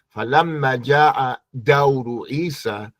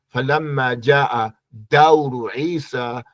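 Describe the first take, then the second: The two takes are said the same way.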